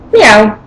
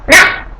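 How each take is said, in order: First: The meow has an American accent. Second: The meow has a Japanese accent. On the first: "American cats" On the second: "Japanese cats"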